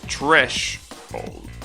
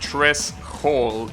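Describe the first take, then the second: First: The s and h blend into one sh. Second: The s and h are said separately. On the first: The speaker calls it right. "so you pronounce the the S H" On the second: The speaker calls it wrong. "it's not threshold"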